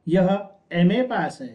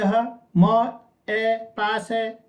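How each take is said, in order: First: M is said as its name 'em'. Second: M is said as a bare 'm' sound. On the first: The speaker calls it right. "मैं क्या बोलूंगा" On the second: The speaker calls it wrong. "मैं ये तो नहीं बोलूंगा ना"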